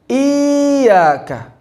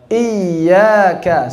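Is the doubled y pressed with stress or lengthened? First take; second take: lengthened; stressed. First: The vowel before the y is drawn out long. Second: The doubled y is pressed with short stress. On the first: The speaker calls it wrong. "bukan dipanjangkan menjadi iyyaka karena tasyabbuh dengan mad" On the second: The speaker calls it right. "Cara bacanya dengan nabr"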